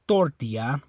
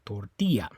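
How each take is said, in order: First: The stress is on the first syllable. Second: The stress is on the second syllable. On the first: The speaker calls it wrong. "it's not the O, you don't say tortilla" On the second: The speaker calls it right. "It's on that I, tortilla"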